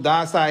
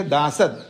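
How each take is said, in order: First: दासा ending on a long open a; reading dasa. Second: दासद with a final d, said दा-सद; reading dasad. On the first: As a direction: read it as दासा, no final d. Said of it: "कुछ लोग दासा ऐसा पढ़ते हैं". (दासा पाठ, अंत में लंबा 'आ') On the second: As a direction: read it as दासद, ending on d. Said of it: "कुछ लोग दासद, कुछ लोग दासा ऐसा पढ़ते हैं". (दासद पाठ, अंत में 'द' के साथ) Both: Shown as a demonstration.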